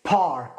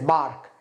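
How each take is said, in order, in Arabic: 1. تبدأ بصوت p مع نفخة هواء. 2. تبدأ بصوت b بدون نفخة هواء. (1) "يخرج هواء park" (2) "وليست بارك"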